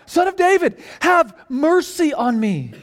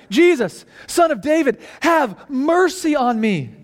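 First: Crying out more insistently. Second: Raised, higher-pitched plea, read aloud; crying out. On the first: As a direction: call out desperately, refusing to be silenced. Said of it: "he cried out all the more". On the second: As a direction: call out for mercy over a crowd. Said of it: "And he cried out". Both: A narrator's reading.

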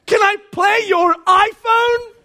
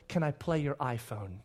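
First: High, loud, slow exaggerated shout; dad repeating his daughter's question as a shout; shouted mock repeat. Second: Put-on quiet, innocent little-girl request; small quiet ask. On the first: Shown as a demonstration. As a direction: belt it out in disbelief. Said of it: "repeated for effect". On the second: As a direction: ask it softly and sweetly. Daughter's quiet request retold.

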